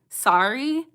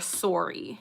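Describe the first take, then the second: First: Sorry is said with an American accent. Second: Sorry is said with a Canadian accent. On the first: "I feel like Americans say Surrey. Or like not Surrey, but like so- sorry" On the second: "Canadians are more sorry"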